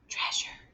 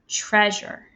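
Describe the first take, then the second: First: It is said in a whisper. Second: It is said in a normal speaking voice. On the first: "Whisper it" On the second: "Say the word treasure with me"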